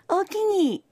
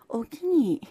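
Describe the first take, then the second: First: It is said warmly and eagerly. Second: It is said coolly and flatly. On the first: Yes, I would like to eat it. "ほんまに食べたかった場合の大きに" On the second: No, I do not want to eat it. "食べたくない時の大きに"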